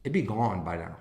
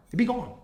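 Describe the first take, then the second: First: Said in the usual way. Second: Jumps up high on It'd be gone; It'd be gone, pitched way up; high emphatic repeat. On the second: Real, not acted.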